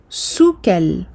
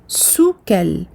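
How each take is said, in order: The two takes are said the same way.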